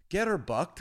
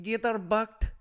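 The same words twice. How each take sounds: First: Put-on raised, higher call to the kids; mock teacher leading a chant; teacher's prompt. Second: High, loud pupils' echo; mimicked children's chorus; children echoing teacher. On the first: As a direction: call it out for a class to copy. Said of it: "turning around to these kids". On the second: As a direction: shout it back like a class of kids. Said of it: "And they're like".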